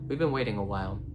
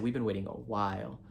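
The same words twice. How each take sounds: First: The sentence is said evenly, without special emphasis. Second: The word 'while' is strongly emphasized. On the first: They have been waiting a while. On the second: It has been much longer than a while.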